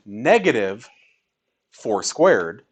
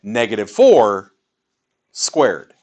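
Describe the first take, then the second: First: "negative", pause, then "four squared" together; pause after negative. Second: "negative four" together, pause, then "squared"; pause after four. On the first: Teacher showing the math grouping, pause after "negative". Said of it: "how the pause in what I'm saying". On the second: Teacher showing parentheses by speech, pause after "four". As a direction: join "negative four" and set "squared" apart. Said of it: "groups the things together in my speech". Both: Shown as a demonstration.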